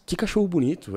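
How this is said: The voice is mid-pitched, moving between low and high. It does not come across as strange. The speaker calls it right. "num tom neutro, onde eu uso o meu grave e transito entre o grave e o agudo"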